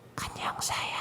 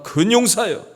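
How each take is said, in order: First: It is said quietly and softly. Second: It is said loudly and boldly.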